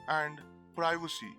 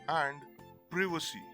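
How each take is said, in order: First: The i sounds like 'eye'. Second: The i sounds like 'ee'. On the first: "The I in these words is pronounced as it is, that is, as I" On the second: "in the American format, the I in these words is pronounced as E"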